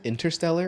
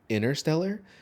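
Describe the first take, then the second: First: The t sound after the n is pronounced. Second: The t sound after the n is dropped. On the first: The speaker calls it right. "I'm glad you said Interstellar" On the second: The speaker calls it wrong. "I've heard people say it like that. I'm like, but there's a T"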